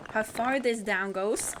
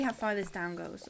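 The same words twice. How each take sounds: First: "How far this down goes" drawn out and louder; slow emphatic repeat. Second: Said in the usual way. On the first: Real, not acted. Streamer checking whether it is a proper sentence, slow emphatic repeat. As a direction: stretch "far" and "goes", lifting at the end. Repeats the phrase, questions its wording.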